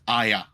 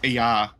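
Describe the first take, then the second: First: The word begins with an 'eye' sound. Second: The word begins with an 'ee' sound. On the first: "they pronounce Iya as Aya" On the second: "they pronounce Iya as Aya"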